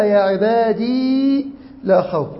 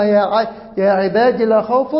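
First: عبادي slow, with a long level ee; lengthened final ya. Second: عبادي with a quick, short final i; don't hold the ي of عبادي, go straight into لا; short final vowel. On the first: Teacher contrasting two readings, long held ee in عبادي. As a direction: draw out the final ee of عبادي before لا. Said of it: "وقرأ". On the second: Teacher contrasting two readings, short vowel on عبادي. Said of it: "يبقى قرأ فيها". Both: Shown as a demonstration.

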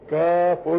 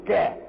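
First: "كاف" stated as the full name "kaaf-un"; letter name. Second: "كا" said as the bare sound "ka"; letter sound. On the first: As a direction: sound out "كاف" firmly with its "-un" ending. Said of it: "اسمها إيه؟". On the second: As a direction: say only "ka" for "كا", no final f. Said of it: "تبقى كا دي هي المسمى". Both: Shown as a demonstration.

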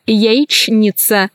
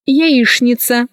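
First: Slow яичница, cut as яич-ница; spelling pronunciation. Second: Яичница said as яишница; CHN as SHN. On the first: Teacher showing how яичница is written, spelled-out reading. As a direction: keep a clear Ч in яичница. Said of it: "Пишется". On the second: Teacher showing how яичница is pronounced, SH sound. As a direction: use Ш for Ч in яичница. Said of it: "произносится". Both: Shown as a demonstration.

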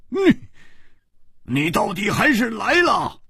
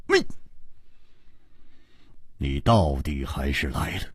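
First: Much higher, exclaimed at full voice; loudly. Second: Lower, softer, resentful words; grudging spite through the teeth; bitterly. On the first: Swordsman echoes her words, calling out loudly. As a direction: call it out in open surprise. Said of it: "大声说". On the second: Swordswoman resents the hero's untimely arrival, bitter. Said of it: "狠狠地说". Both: A narrator's reading.

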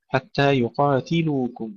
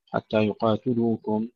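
First: يقاتلوكم with a clear i after ت, then u on ل; full kasra on ت. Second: يقاتلوكم with u after ت, yuqaatuluukum; wrong vowel. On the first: Teacher modelling the right vowels, يقاتلوكم with clear ti. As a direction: say يقاتلوكم as yuqaatiluukum, ti distinct. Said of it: "كسر التاء". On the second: Teacher demonstrating the mistake, يقاتلوكم said with tu. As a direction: turn the ti of يقاتلوكم into tu. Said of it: "لا نقول". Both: Shown as a demonstration.

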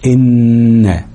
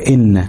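First: إن with a long, level nasal hum on ن; held ghunna. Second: Said in the usual way. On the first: Shown as a demonstration. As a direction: hold the doubled ن of إن. (إن بغنة طويلة على النون) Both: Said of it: "هنتك على النون شوية".

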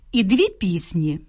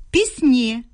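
First: Пісні stressed first, ПІС-ні; stress on the stem. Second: Пісні stressed at the end, піс-НІ. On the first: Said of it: "наголос у них падає на основу". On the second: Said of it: "мають наголошене закінчення". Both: Shown as a demonstration.

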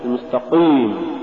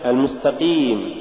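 First: المستقيم with Q too thick, darkening the ee; over-heavy qaf. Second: المستقيم with a clean ee after the Q; lighter qaf. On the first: Tajweed teacher showing the mistaken reading, over-heavy qaf. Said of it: "تقرأ لحنا". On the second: Tajweed teacher giving the example, lighter qaf. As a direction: keep qeem clear in المستقيم. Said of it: "مثال". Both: Shown as a demonstration.

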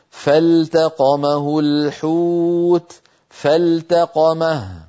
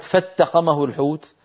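First: فالتقمه with the lam clearly sounded before the ta, very slow; clear correct recitation. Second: فاتقمه with the lam dropped into the ta; wrong merged reading. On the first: Teacher demonstrating the lam clearly pronounced, very slow recitation. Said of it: "وإنما أظهرها بقوله". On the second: Teacher voicing the merging no reciter transmitted. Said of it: "يعني لم يروي أحد". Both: Shown as a demonstration.

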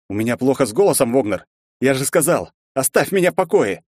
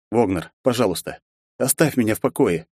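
First: Raised voice. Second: Cold and hard, every word firm; a warning wrapped in politeness; steely voice. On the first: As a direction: snap at him to leave. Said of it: "я поднял на него голос". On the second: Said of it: "Мой голос уже отдавал сталью". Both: A narrator's reading.

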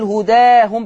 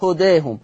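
First: هداهم with a full open ā, as in Hafs; هداهم, stretched open ā without tilting; open fatha. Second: هداهم with the ā tilted slightly towards e; هداهم, alif between open a and e; taqlil. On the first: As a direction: say هداهم with the alif wide open. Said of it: "هداهم بالفتح زي حفص". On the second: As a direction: say هداهم with a half-tilted alif, as Warsh reads it. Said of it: "أو هداهم". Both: Shown as a demonstration.

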